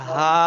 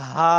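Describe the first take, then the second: First: হা scraped from an open, thickened throat; throaty ha. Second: হা let out as a puff of air; breathy ha. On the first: Teacher demonstrating the throaty ha letter, rough. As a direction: widen the throat and rasp হা. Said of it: "গলা মোটা করলে যেরকম হয়". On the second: Teacher demonstrating the airy ha letter, breathy. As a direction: breathe হা out like a gust of wind. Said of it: "বাতাস বের হবে হাওয়ার মতো". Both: Shown as a demonstration.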